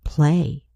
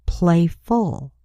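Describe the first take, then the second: First: Said in the usual way. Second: Playful with the ful ending set apart; ending added. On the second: Shown as a demonstration. Teacher showing the new ending on Playful. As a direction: clearly sound the ful in Playful. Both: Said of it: "add the suffix F U L".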